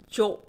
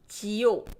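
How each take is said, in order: First: It is said quickly as one merged syllable. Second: It is said as two separate syllables.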